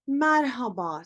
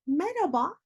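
First: Merhaba with a clear H, mer-ha-ba; written form. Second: Merhaba as me-ra-ba, rising; dropped H. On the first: Teacher reads written form, merhaba with H. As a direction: sound the H in merhaba. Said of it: "şeklinde yazıyoruz". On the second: Teacher demonstrates everyday greeting, merhaba without H. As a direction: leave out the H in merhaba, pitch up. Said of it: "H sesi sanki yokmuş gibi". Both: Shown as a demonstration.

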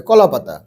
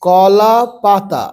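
First: কলা পাতা quick and lower, run together; quick reading. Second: কলা পাতা very slow, syllables stretched; slow, broken reading. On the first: Teacher showing pupils how to speed up, read quickly. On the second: Teacher showing beginners the first step, read slowly. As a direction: draw out কলা and পাতা separately. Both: Shown as a demonstration. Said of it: "এবার তাড়াতাড়ি পড়বে".

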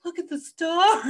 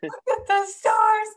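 First: High, loud wonder, imitating him; mock awe. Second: High, loud, slow outraged echo; retold fury. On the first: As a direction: gush like an awestruck passenger. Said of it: "They're so beautiful". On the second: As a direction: throw his words back, drawn out and furious. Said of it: "I was so mad".

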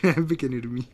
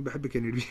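First: بحبك يا نرمين said louder, leaning on بحبك; a louder, bolder بحبك يا نرمين; louder declaration. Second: Said in the usual way. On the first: Shown as a demonstration. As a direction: announce بحبك يا نرمين with a loud push on بحبك. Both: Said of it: "قول".

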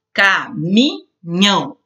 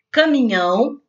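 First: "Caminhão" slowly split into three separate syllables. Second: Said in the usual way. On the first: Shown as a demonstration. Teacher separating syllables for pupils, "Caminhão" said syllable by syllable. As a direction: break "Caminhão" into ca, mi, nhão with pauses. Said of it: "separe as sílabas". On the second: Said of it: "três sílabas".

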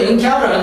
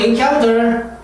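First: "encounter" with the T softened away; weak American T. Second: "encounter" with the T fully sounded; strong T. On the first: Teacher modelling American style for students, "encounter" with weak T. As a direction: say "encounter" as "in-COW-ner". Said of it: "미국식은 R 발음이 살면서 T를 약하게". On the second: Teacher contrasting accents for students, "encounter" with strong T. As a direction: say "encounter" as "in-COWN-ter". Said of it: "T가 강하게". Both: Shown as a demonstration.

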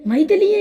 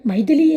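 First: Much higher and louder, a shocked gasp of her name; stunned cry of recognition; startled cry. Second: Louder call of her name with a lift at the end; urgent call on the run; calling while running. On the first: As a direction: blurt her name in disbelief on sight. Suddenly sees her through glass. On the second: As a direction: call after her as you run downstairs. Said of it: "అని అంటూ పరిగెత్తుకుంటూ". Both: A narrator's reading.

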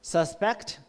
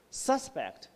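First: Suspect as the verb, stress on the second syllable, sus-PECT with a weak first vowel. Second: Suspect as the noun, stress on the first syllable, SUS-pect with a full first vowel, falling. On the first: Teacher showing the verb form to students, sus-PECT stressed at the end. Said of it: "Suspect is the verb". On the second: Teacher showing the noun form to students, SUS-pect stressed first and falling. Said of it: "or the noun, suspect". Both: Shown as a demonstration.

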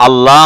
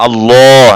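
First: 'আল্লাহ' as open 'al-laa'; wrong thin l. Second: 'আল্লাহ' with a long, rounded 'lloo'; heavy l. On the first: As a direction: show the error, light 'laa' in 'আল্লাহ'. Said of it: "আল্লাহ বলা যাবে না". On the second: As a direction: swell into a thick 'al-loo' on 'আল্লাহ'. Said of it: "এভাবে বলতে হবে". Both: Shown as a demonstration.

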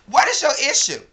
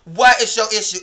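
First: Loud, high demanding question; angry yell. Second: Loud exasperated demand, a bit less high; angry yell. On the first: Yelling at the friend who woke her, furious question. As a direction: snap the question at her, much higher and louder. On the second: Still yelling at the friend over two pictures, exasperated. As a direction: throw the question back at her, louder. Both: Real, not acted.

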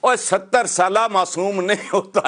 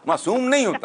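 First: Said in the usual way. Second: नहीं pushed up high in emphasis; higher insistent repeat stressing नहीं; emphatic repeat. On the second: Acted. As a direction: hammer home नहीं with a high pitch. Repeats point more emphatically.

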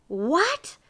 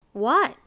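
First: High, rising, incredulous what; dismayed. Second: Quick, raised, louder question; eager. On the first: Miser hears he must work first, dismayed. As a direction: cry it in disbelief. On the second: Miser wants to earn his pies, eager. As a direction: pounce on it eagerly. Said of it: "asked Mister Miser eagerly". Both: A narrator's reading.

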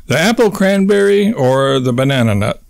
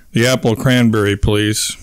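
First: Said in the usual way. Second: Monotone. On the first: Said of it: "simply responds". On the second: A narrator's reading. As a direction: answer in a dull monotone. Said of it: "she replies in a monotone".

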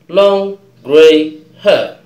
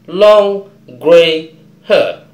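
Both takes have the same delivery.

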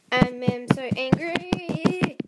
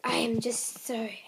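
First: Said in the usual way. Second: Soft hushed whisper, words barely voiced; whispered anger. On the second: Real, not acted. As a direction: breathe the anger out under your breath. Upset kid ranting about dogs.

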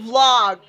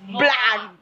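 First: Vlog said with an aw sound, like "vlawg"; the mistaken way: vlog rhymes with log; wrong vlog. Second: Vlog said like "blag", with a b and a flat a; Filipino vlog. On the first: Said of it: "It's not vlog". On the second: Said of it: "because we are Filipino, we pronounce it vlog". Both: Shown as a demonstration.

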